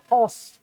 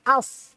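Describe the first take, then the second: First: The vowel is a rounded o. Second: The vowel is an open a. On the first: The speaker calls it wrong. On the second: The speaker calls it right.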